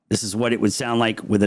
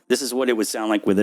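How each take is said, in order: First: The voice is heard without the processing effect. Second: The voice is heard with the processing effect. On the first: "Turn it off. This is what it would sound like with it off" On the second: "Turn it on. This is what it would sound like with it on"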